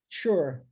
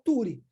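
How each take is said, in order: First: The ending is read with English sounds. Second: The ending is read with Portuguese sounds. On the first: The speaker calls it right. "Mas em inglês, U R E, ou T U R E, sure" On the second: The speaker calls it wrong. "o padrão linguístico do português, T U R E, fica como? R E fica ture"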